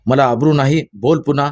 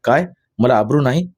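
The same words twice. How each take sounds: First: Read-aloud shout daring him to repeat it. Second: A touch of shocked disbelief on आबरू, rising; mildly stung, questioning sharply; flaring up suddenly. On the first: Father shouting at his son, daring him to repeat it. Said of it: "तो ओरडला". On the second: Father stung by his son's insult, suddenly flaring up. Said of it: "Krishnaji एकदम उचलून म्हणाला". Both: A narrator's reading.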